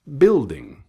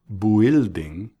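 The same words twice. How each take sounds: First: "building" as BIL-ding, silent U, first syllable punched louder and higher; correct BUILDING. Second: "building" with a spoken U, bwil-ding, drawn out; mispronounced BUILDING. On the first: Teacher correcting the mistake for listeners, crisp correct "building". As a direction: hit BIL in "building", no U sound. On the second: Teacher showing listeners the mistake to avoid, mispronounced "building". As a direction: sound out the silent U in "building", slowly. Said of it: "No building, sino". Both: Shown as a demonstration.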